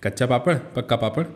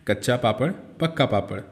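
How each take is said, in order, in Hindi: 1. यह वाक्यांश और भी जल्दी बोला गया है। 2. यह वाक्यांश जल्दी बोला गया है। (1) "और जल्दी बोलिए" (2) "ज़रा जल्दी जल्दी बोलिए मेरे साथ"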